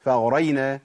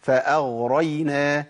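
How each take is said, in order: First: فأغرينا quick with a clean firm ghain; correct ghain. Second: Slow فأغرينا with the ghain slurred and weak; wrong ghain. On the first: Teacher giving the right form after the error. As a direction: say فأغرينا briskly and clearly. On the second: Teacher showing the mistake to avoid, slow. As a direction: drag فأغرينا, barely touching the ghain. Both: Shown as a demonstration. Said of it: "ما أقولش فأغرينا".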